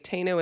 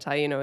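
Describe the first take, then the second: First: It is pronounced the American way. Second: It is pronounced the Spanish-British way. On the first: "is like the American version" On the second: "is like the Spanish and British version"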